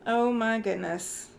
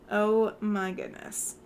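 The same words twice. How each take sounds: The two takes are said the same way.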